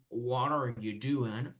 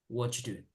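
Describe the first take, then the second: First: Each word is said fully and separately. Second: The words are run together, dropping are. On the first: "the correct thing is to say" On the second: "They just put everything together"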